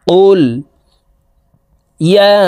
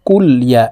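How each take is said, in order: First: The lam closes the syllable before 'ya'. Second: The lam carries a vowel, blending into 'ya'. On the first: The speaker calls it right. "কফ লাম পেশ কুল" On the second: The speaker calls it wrong. "এখানে আমরা অনেকে এইভাবে পড়ে থাকি"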